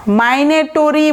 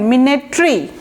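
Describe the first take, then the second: First: মাইনেটরি with "my" first and a full "to-ree" ending; wrong pronunciation. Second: MINETRI in three syllables, ending in "tree"; correct pronunciation. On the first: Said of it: "মাইনেটরি বলবেন না". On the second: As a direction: say মিনেটরি as "mi-ne-tree", no "o" before the r. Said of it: "এটার উচ্চারণটা দেখেন". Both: Shown as a demonstration.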